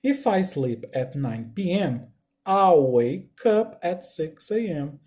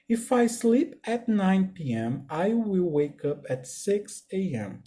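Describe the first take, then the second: First: "I'll" run together as one syllable, slow read; slow contracted model sentence; contracted form. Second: "I will" said as two full words, slowly; slow full form for students. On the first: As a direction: glide "I'll wake up" as one clipped syllable. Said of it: "a mesma frase vai ser dita da seguinte forma". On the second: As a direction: spell out "I will wake up" unhurried, no contraction. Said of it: "ela não tá contraída". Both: Shown as a demonstration.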